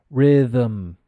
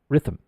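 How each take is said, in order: First: The th is voiced, the vocal cords vibrate. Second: The th is voiceless, only air passes. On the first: The speaker calls it right. "The th is pronounced. It's vocalized" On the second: The speaker calls it wrong. "you have this sound in Spanish, which is the theta"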